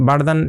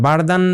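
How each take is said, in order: The two takes are said the same way.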